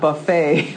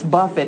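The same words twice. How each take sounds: First: The word ends with a long 'ay' sound. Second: The word ends with a short 'it' sound. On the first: It means a spread of food. The speaker calls it wrong. "not buffet. So not taking it to the buffet" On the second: It means to strike or discipline. The speaker calls it right. "it's buffet"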